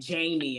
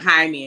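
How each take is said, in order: First: The name is said with English sounds. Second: The name is said with Spanish sounds. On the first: Someone else mispronounced the name. The speaker calls it wrong. "she was saying Jamie" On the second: This is how the person's name really sounds. The speaker calls it right. "And it was like Jaime"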